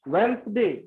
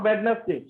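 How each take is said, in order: First: The middle d is silent, in two syllables. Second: The middle d is sounded, in three syllables. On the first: The speaker calls it right. "Right pronunciation होता है वेंसडे" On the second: The speaker calls it wrong. "Not वेडनेसडे"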